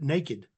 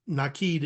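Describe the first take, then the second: First: It sounds like the English word naked. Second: It does not sound like the word naked. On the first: This is how an American reader would say the spelling. The speaker calls it wrong. "an English person speaking American would pronounce it naked" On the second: This is the family's own pronunciation. The speaker calls it right. "Nakid is how it's pronounced"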